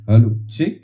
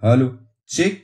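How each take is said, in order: First: The low bass frequencies are boosted. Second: The mid frequencies are boosted. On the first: "তো last হচ্ছে লো বেস।" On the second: "এখানে দেখুন মিডের quality দেখুন এবার।"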